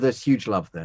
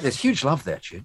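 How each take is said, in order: First: It is said in a flat, plain tone. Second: It is said with lively enthusiasm.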